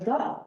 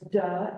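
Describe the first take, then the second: First: It starts with a th sound. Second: It starts with a d sound.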